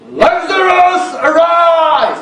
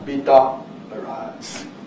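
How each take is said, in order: First: It is shouted very loudly. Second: It is said very softly.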